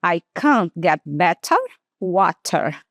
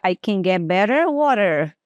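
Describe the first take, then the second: First: "can't" long A and "better" with a clear T; slow British "can't", "water". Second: "better" and "water" with a flapped T sounding like R, said quicker; quick American "better water" with a flap. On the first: Teacher to students, demoing the long British form. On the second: Teacher to students, showing her usual flapped T. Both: Shown as a demonstration. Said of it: "E a forma que eu falaria".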